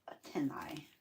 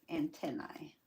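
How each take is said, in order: First: "antennae" whispered, no voice; whispered word. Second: Said in the usual way. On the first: Real, not acted. Gluing antennae on the butterfly, saying "antennae" in a whisper. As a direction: breathe "antennae" out unvoiced.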